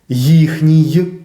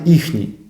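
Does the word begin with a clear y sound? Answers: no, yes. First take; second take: yes; no. First: The word starts with a clear y sound. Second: The word starts without any y sound. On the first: The speaker calls it right. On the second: The speaker calls it wrong. "а не «їхній»"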